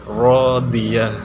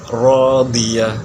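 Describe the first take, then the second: No difference in how they are said.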